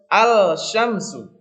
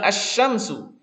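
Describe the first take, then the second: First: The L is clearly pronounced before the SH. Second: The L merges into a doubled SH sound. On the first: The speaker calls it wrong. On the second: The speaker calls it right.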